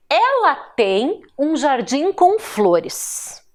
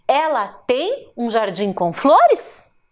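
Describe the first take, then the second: First: "flores" falls at the end, read slowly; statement intonation. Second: "flores" lifts into a question, read slowly; question intonation. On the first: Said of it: "ela encerra com um ponto final". (afirmação pausada, com "flores" descendo no final) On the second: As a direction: ask it slowly, rising on "flores". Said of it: "é uma frase interrogativa". (pergunta pausada, com "flores" subindo no final) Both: Shown as a demonstration.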